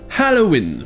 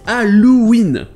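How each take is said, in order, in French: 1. Il a des sons anglais et un h initial soufflé. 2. Il a des sons français et pas de h initial. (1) "en anglais déjà il y a le H aspiré au début" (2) "en français on dit Halloween"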